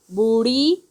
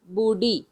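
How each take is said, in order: First: "बूढ़ी" with a flap and rising end; flapped ढ़. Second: "बूढ़ी" with a stopped ढ; hard ढ. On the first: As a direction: flick the tongue in "बूढ़ी", no hard stop. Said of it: "इसमें अंतर क्या है". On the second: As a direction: stop the tongue firmly in "बूढ़ी", no flap. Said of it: "ढ ढक्कन की तरह उच्चारण करेंगे". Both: Shown as a demonstration.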